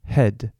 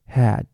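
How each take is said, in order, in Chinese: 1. 这个元音发音时嘴巴张开得较小。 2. 这个元音发音时嘴巴张得很大。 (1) "e 嘴巴要缩小" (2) "嘴巴张太开，a 会变a"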